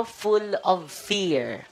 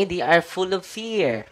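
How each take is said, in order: First: Full of fear stretched out very slowly, each word drawn long; very slow emphatic repeat. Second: Said in the usual way. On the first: Shown as a demonstration. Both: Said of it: "Ano yung mga demonyo?".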